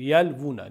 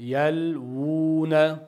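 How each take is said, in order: First: The vowel after the l is short. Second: The vowel after the l is drawn out long. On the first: The speaker calls it wrong. "agar kichkina vavni hisobga olmasak" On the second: The speaker calls it right. "Yalvuna cho'zib aytiladi"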